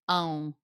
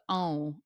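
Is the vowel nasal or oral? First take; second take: nasal; nasal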